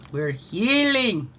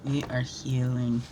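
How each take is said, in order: First: Slow, louder, with a high swoop on healing; drawn-out rising cheer; exclaimed affirmation. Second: Low, slow, measured statement; calm affirmation. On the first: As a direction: proclaim it, stretching out the key word. Same affirmation, exclaimed then calm. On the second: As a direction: settle into it slowly and sincerely. Same affirmation repeated calmly. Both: Real, not acted.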